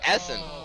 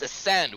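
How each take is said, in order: First: The stress is on the first syllable. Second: The stress is on the second syllable. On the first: The speaker calls it right. "I knew it was Essen" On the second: The speaker calls it wrong. "with the stress on the second syllable"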